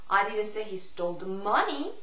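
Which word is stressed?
money. The stress falls on the word money. "Money의 강세를 주느냐"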